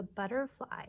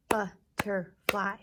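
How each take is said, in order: First: Said in the usual way. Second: "Butterfly" slowly in three loud beats; syllable by syllable. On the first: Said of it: "Here we go". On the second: Shown as a demonstration. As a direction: clap out "Butterfly" as BUT, TER, FLY. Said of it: "claps for butterfly".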